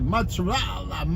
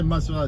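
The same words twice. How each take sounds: First: The word has an Italian-style pronunciation. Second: The word has a plain American English pronunciation. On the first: The speaker calls it right. "Italian, they say" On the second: The speaker calls it wrong. "they don't say mozzarella"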